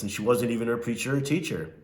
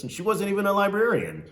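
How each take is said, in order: First: Said in the usual way. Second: Librarian jumps high with a falling finish; punchline stress on librarian, rising high then falling. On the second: Real, not acted. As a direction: land on librarian, pitch way up then down. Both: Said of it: "she talked strange like this".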